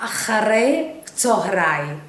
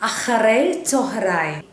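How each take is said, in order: Both takes have the same delivery.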